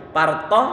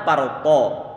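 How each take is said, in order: First: Parto light plain to; thin parto. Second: Parto with heavy to, slowly; full deep to; thick parto. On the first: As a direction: Indonesian to. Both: Shown as a demonstration. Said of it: "yang kedua antum pakai".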